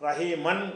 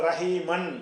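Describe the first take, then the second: No difference in how they are said.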